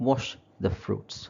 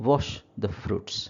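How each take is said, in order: The two takes are said the same way.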